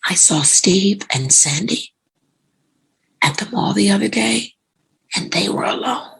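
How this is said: It is said in a knowing, suggestive tone. Something improper is hinted at. "Same words, but different tone"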